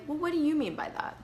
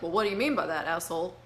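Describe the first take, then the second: First: It sounds genuinely curious and open. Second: It sounds hostile and accusing.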